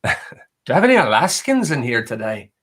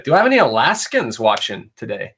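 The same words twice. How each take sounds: First: Laughing Irish accent redo. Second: A hint of an Irish lilt slipping in; slipped Irish accent. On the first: Shown as a demonstration. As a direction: repeat the question with a playful Irish accent, laughing. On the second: Real, not acted. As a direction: let a light Irish accent slip out unplanned. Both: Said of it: "Kinda said that in a Irish accent".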